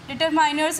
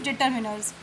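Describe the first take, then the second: First: The middle vowel sounds like 'eye'. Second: The middle vowel sounds like short 'ih'. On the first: The speaker calls it wrong. "डिटरमाइनर्स is not the correct pronunciation" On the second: The speaker calls it right. "Correct pronunciation is डिटरमिनर्स"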